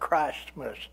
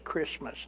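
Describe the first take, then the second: First: The T sound in the middle is pronounced. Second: The T sound in the middle is dropped. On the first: "How many people actually say" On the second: "You don't hear a T in it"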